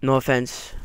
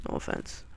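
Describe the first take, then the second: First: Said in the usual way. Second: Breathy whisper; whispered apology. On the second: Real, not acted. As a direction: whisper it under your breath.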